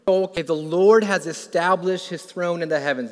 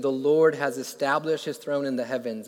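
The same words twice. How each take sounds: First: A touch louder, declared with lift; uplifted proclamation. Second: Said in the usual way. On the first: Retold or imitated. David speaking the verse as it dawns on him, uplifted. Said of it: "he says". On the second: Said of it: "Verse nineteen".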